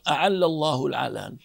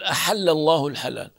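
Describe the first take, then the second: First: The words use a voiced ain sound. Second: The words use a breathy h sound. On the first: This is the Hudhayl way of saying it. "أما قبيلة هذيل فيقول قائلهم" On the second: This is the Quraysh way of saying it. "قبيلة قريش تقول"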